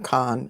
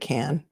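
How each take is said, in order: First: The vowel sounds like the one in con. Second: The vowel sounds like the one in can. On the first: This is how an outsider says the name. The speaker calls it wrong. "Gloria keeps calling her Con" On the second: This is how the family says the name. The speaker calls it right. "She pronounces it Can"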